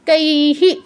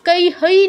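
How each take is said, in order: First: The final h is followed by an i vowel. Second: The final h is followed by an oi vowel. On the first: The speaker calls it right. "তাহলে কি হবে কৈহি" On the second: The speaker calls it wrong. "নয় কিন্তু"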